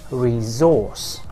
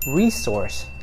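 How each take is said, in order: First: Stress on the second syllable, with a z sound. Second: Stress on the first syllable, with an s sound. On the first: "the British would pronounce it completely differently" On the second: "Americans would pronounce it"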